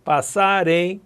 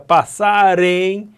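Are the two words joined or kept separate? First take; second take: joined; joined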